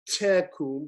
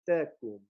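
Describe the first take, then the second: First: The T is strongly aspirated with a puff of air. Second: The T is soft and dentalized, almost like D. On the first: The speaker calls it wrong. "it's not tecum" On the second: The speaker calls it right. "It's a very dentalized, soft. It's almost more like a D"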